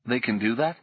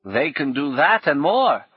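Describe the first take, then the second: First: Said in the usual way. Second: Put-on higher, louder old woman with a rueful edge. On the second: Old woman answering Paul, rueful and higher. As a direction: answer like a defeated old crone. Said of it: "Her laugh was rueful".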